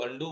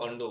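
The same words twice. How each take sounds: First: अनडू ending in a long "oo"; variant pronunciation. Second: अनडू ending in "o", as अनडो; variant pronunciation. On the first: Teacher showing how some people say अनडू, with an "oo" ending. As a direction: say अनडू as "un-DOO", closing on an oo vowel. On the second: Teacher showing how other people say अनडू, with an "o" ending. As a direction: say अनडू as "un-DOH", closing on an o vowel. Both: Shown as a demonstration. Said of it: "pronunciation कर सकते हैं".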